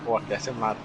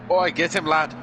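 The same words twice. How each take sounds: First: Understated attempt at a Scottish accent; terrible Scottish accent. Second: High, louder mock Scottish cheer; hammed-up Scottish shout of encouragement; terrible Scottish accent. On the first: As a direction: repeat it in a half-hearted Scottish accent. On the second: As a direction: put on a bad Scottish accent and call it out. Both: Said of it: "That's my terrible accent of Scottish".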